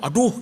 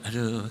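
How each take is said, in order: First: It is said strongly and loudly. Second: It is said softly and quietly.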